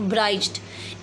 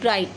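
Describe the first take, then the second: First: The gh is sounded as an extra consonant. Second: The gh is silent, no extra sound. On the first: The speaker calls it wrong. "नॉट" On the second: The speaker calls it right. "इस word को हम pronounce करेंगे ब्राइट"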